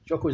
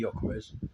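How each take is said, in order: First: The name begins with a J sound. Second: The name begins with a Y sound. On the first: "Jokores is like a J" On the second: "could be a silent G, and it's pronounced with the Y"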